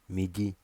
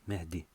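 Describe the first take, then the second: First: It is said with a French accent. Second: It is said with a North African accent.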